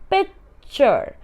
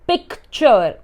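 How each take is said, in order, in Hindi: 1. ch से पहले कोई k की ध्वनि सुनाई नहीं देती। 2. ch से पहले k की ध्वनि सुनाई देती है। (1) "C here is silent" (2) "We don't say picture"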